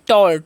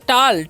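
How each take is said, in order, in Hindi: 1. स्वर एक गोल होठों वाली 'aw' ध्वनि है। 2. स्वर एक खुली 'ah' ध्वनि है। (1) "टॉल पढ़ना है" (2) "टाल नहीं पढ़ना है"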